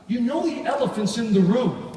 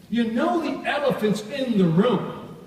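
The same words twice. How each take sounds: First: Said in the usual way. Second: Each word slowed and leaned on, higher; slow, emphatic repeat. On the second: Shown as a demonstration. Trainer repeating the point to the seminar, slow and weighty. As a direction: hammer home elephant's in the room.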